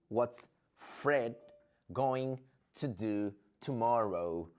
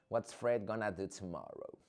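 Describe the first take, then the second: First: Going to is said in full. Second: Going to is reduced to gonna.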